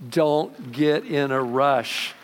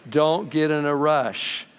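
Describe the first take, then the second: No difference in how they are said.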